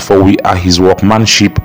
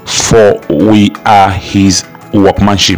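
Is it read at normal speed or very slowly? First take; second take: normal speed; very slowly. First: It is read at a normal pace. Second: It is read very slowly.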